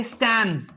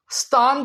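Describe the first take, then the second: First: स्टैन as "stæn"; American pronunciation. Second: स्थान as "staan"; British-Indian pronunciation. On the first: Teacher showing the US syllable, "stæn" स्टैन. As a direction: say स्टैन with cat-like a. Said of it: "वो बोल देंगे". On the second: Teacher quoting our syllable, "staan" स्थान. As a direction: say स्थान with long aa. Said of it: "स्थान को". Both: Shown as a demonstration.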